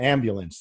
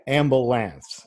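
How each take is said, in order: First: The word is said in a standard American way. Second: The word is said in a Southern dialect way.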